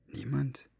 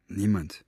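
First: Breathless, incredulous whisper of Niemand; whispered disbelief. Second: Said in the usual way. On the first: A narrator's reading. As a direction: hiss Niemand as a shocked question. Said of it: "sah Fenoglio so anklagend an".

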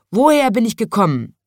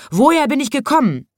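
First: Loud, raised question, lightly voiced lion; lion asking. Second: High, loud shouted question; lion shouting across. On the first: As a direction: ask insistently as the storybook lion. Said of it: "hat der Löwe das Rotkehlchen gefragt". (laut fragender Löwe) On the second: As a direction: shout it over to the opposite cage. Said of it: "schrie da der Löwe seinem Gegenüber zu". (hoch und laut hinübergerufen) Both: A narrator's reading.

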